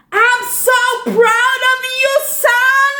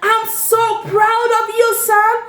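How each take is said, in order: First: High, ringing call of a proud father; proud shout. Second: Raised, ringing but a touch calmer; proud call. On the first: Dad calling out to his son after the race, high proud shout. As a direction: call out your pride across the pool. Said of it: "Now I'm gonna shout just like that". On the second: Dad calling out to his son again, raised proud call. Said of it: "Dad shouted out". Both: Acted.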